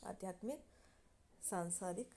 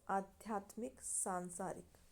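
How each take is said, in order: Both takes have the same delivery.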